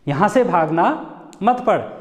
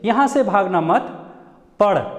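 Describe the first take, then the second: First: The pause comes after 'bhagna', before 'mat'. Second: The pause comes after 'mat', before 'padh'.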